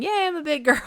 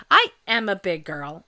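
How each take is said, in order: First: Put-on high, louder little-kid cheer on yay; childlike cheer. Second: Said in the usual way. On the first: Forty-seven-year-old mimicking a kid, high and louder. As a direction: chirp it like a proud small child. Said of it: "I'm forty-seven saying". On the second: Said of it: "That's true".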